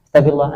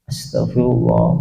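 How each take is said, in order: First: It is said fast and hurriedly. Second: It is said slowly and calmly.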